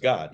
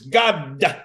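First: The word is said as one syllable. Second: The word is stretched into two syllables. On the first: "He never says God" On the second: "the only man who can put two syllables in the word God"

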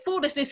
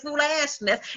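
First: The middle syllable sounds like 'ish'. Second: The middle syllable sounds like 'ash'. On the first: "He don't say foolishness" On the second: "He say that fool ashness"

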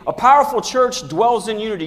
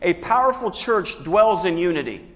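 First: It is said with strong energy and gusto. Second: It is said in a plain, calm way. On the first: "say it again with some unction, with some gusto" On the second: "say this with me"

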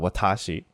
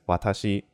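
First: The middle syllable is stressed and lengthened. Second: All syllables are even, with no stress.

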